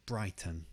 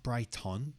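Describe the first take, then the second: First: Brighton ending in a weak uh, falling; the right Brighton; correct Brighton. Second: Brighton with a full ton ending, rising; the wrong Brighton. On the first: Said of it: "you got the uh sound". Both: Shown as a demonstration.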